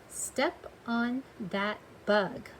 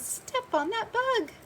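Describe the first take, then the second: First: It is said plainly, without special expression. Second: It is said with excited, urgent expression.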